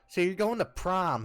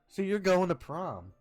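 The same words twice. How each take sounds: First: It is said in a put-on character voice. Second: It is said in the speaker's natural voice. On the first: A fictional character is saying it. The speaker calls it right. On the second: The speaker answers as himself. The speaker calls it wrong.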